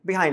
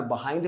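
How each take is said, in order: First: "behind" said bih-HYND, first vowel a short i; British pronunciation. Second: "behind" said buh-HYND, first vowel a schwa; American pronunciation. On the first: English teacher showing students the British way, "behind" as bih-hynd. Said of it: "Britishers में behind बोलोगे". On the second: English teacher showing students the American way, "behind" as buh-hynd. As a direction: open "behind" with a relaxed "buh". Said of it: "American में behind बोलोगे". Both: Shown as a demonstration.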